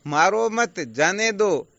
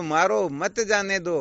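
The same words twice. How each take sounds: First: Loud, slow मारो मत together, a break, then जाने दो; forceful order to spare them, split after मत; pause after मत. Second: Loud, slow मारो set apart, then मत जाने दो in one run; forceful order to strike, split after मारो; pause after मारो. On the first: (मत के बाद विराम) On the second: (मारो के बाद विराम) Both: Shown as a demonstration. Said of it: "अनर्थ हो गया ना".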